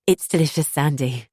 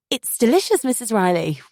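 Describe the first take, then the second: First: Forced smile. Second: Bright, high strained compliment; gushing to hide the gag; forced politeness. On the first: Acted. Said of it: "plastering a smile on my face". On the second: A narrator's reading. Narrator to mother-in-law, high forced politeness.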